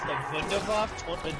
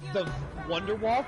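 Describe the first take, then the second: First: The name starts with a V sound. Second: The name starts with an English W sound. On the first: The speaker calls it right. "spoke their W's as V's" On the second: The speaker calls it wrong. "Germans did not speak their W's"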